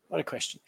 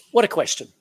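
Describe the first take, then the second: First: Much softer, murmured repeat; soft echo. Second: Higher, louder marvelling exclamation; emphatic exclamation. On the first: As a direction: let it fall away to yourself. Repeated exclamation, echoed softly. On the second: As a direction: proclaim it to the whole room. Repeated exclamation. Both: Acted.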